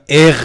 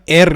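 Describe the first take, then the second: First: The r is a guttural, gh-like sound. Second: The r is a plain, clear r sound. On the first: "یه سریا اغ میگن" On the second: "یه سریا ار میگن"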